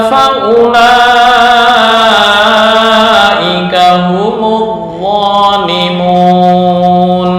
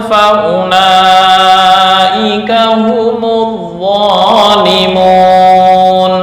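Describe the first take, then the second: No difference in how they are said.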